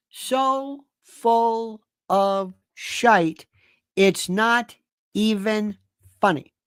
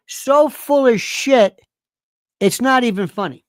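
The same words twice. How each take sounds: First: Very slow, "So... full... of... shite" with each word stretched; drawn-out emphasis. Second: SO FULL OF SHIT loud, high and stretched out; emphatic disgust. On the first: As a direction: spell it out word by word, pausing between "not", "even" and "funny". Repeats insult, slowly drawn out. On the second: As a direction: hit "So full of shit" hard, then ease "it's not even funny". Ranting about JFK conspiracy people. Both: Real, not acted.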